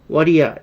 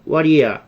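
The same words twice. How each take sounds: First: "what do you" run together as "wha-ri-ya"; fast native pronunciation. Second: Said in the usual way. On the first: Shown as a demonstration. Teacher shows learners how natives say it, "what do you" blurred together. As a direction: say "what do you" linked, the t softened to a flap. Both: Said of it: "원어민들이 빨리 발음하면".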